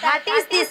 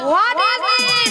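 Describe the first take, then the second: First: It is mangled into 'hatis dis'. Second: It is said as 'what is this'. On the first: The speaker calls it wrong. "মাসি ওটা হাটিস দিস নয়" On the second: The speaker calls it right. "বলো হোয়াট ইজ দিস"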